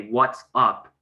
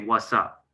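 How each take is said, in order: First: Each syllable is said clearly. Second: The words are slurred together quickly.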